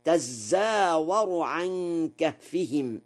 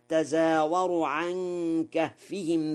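First: Slow تزاور as "tazzaawaru"; doubled zay. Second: تزاور as "tazaawaru", unstressed z; single light zay. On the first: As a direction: lean on a long double z in تزاور. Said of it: "بتشديد الزاي". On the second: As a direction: say تزاور with a short undoubled zay. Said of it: "قوله تعالى". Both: Shown as a demonstration.

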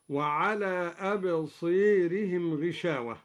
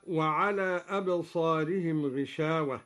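First: أبصيرهم, alef leaned toward e; Duri imala. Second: أبصارهم with an open aa; standard recitation. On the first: Teacher showing students the imala of al-Duri. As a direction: bend the alef before ra toward ee. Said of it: "بإمالة الألف قبل الراء المتطرفة، هكذا". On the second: Teacher reciting أبصارهم with an open alef. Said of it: "قرأ الدوري بإمالة الألف". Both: Shown as a demonstration.

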